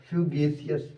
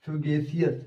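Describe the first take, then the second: No difference in how they are said.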